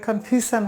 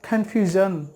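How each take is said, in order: First: The middle consonant is a voiceless 'sh' sound. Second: The middle consonant is a voiced 'zh' sound. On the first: The speaker calls it wrong. "সেক্ষেত্রে এটা confusion হবে না" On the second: The speaker calls it right. "এই এসের উচ্চারণটা হবে জন"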